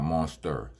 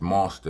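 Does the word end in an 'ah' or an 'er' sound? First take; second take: er; ah. First: The word ends with an 'er' sound. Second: The word ends with an open 'ah' sound. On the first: The speaker calls it wrong. "No E R" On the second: The speaker calls it right. "It's M O N S T A"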